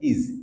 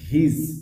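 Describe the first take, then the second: First: The word begins with a vowel, no h. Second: The word begins with a clear h sound. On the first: "উইক sound এটা হচ্ছে ইজ" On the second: "strong sound করছি হিজ"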